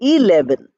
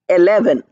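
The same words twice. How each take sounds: First: The first vowel sounds like a short i. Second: The first vowel sounds like the vowel in bed. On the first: The speaker calls it right. "we write E and we pronounce it as I" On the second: The speaker calls it wrong. "We don't say eleven"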